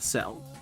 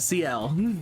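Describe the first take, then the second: First: The name is said as one syllable. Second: The name is said as two syllables. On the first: The speaker calls it wrong. "Not Cell" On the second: The speaker calls it right. "Sorry, uh, C L"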